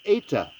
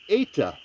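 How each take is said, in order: First: The first vowel sounds like 'eh'. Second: The same.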